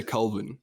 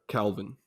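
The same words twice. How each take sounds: First: "Kelvin" in a South African accent; South African "Kelvin", first vowel dark and low; South African pronunciation. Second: "Calvin" in an American accent; American-style "Calvin", softer, open first vowel; American pronunciation. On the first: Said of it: "it sounds a lot lower". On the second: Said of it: "They would say, like". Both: Shown as a demonstration.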